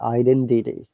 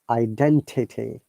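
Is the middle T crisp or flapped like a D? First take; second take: flapped; crisp. First: The T in the middle sounds like D. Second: The T in the middle is crisp. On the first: "American I P would be identity" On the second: "this is British I P"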